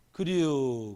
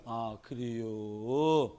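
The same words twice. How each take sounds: First: Said in the usual way. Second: Very slow, noncommittal Chungcheong-style answer; slow Chungcheong drawl. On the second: Retold or imitated. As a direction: stretch out the reply like a cautious Chungcheong local. (아주 느릿하게 눈치 보는 충청도식 대답) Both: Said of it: "이렇게".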